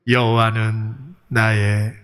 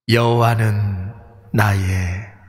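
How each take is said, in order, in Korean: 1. 목소리가 에코 없이 담백하게 들려요. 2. 목소리에 에코가 더해져서 들려요.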